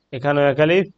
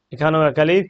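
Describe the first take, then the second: No difference in how they are said.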